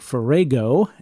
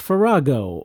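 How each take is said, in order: First: The middle vowel is a long A. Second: The middle vowel is not a long A.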